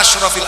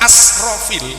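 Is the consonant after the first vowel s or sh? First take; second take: sh; s. First: The middle consonant is a sh sound. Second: The middle consonant is a plain s sound. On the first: The prophets are called the most noble. The speaker calls it right. "Ashraf itu yang benar shin" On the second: The prophets are called the most wasteful. The speaker calls it wrong. "pakai sin tanpa titik"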